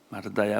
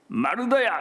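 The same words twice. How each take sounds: First: It is said gently. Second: It is said harshly.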